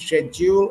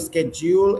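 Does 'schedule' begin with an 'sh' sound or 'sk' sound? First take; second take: sh; sk. First: The word begins with an 'sh' sound. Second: The word begins with an 'sk' sound. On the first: "Schedule is British pronunciation" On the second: "Schedule is American pronunciation"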